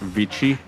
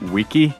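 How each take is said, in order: First: It has a v and a ch sound. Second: It has a w and a k sound. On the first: The speaker calls it wrong. "you wouldn't say like Vici" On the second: The speaker calls it right. "a C just always sounded like k"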